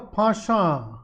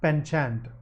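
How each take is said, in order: First: The word is said with a British pronunciation. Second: The word is said with an American pronunciation. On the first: "That's the British pronunciation" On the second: "the American pronunciation is penchant"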